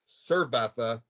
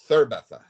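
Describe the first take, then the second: First: It is said with a Latin American pronunciation. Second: It is said with a pronunciation from Spain. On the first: This is the form the speaker does not want to use. The speaker calls it wrong. "start saying things like cerveza" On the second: This is the form the speaker wants to use. The speaker calls it right. "instead of cerveza"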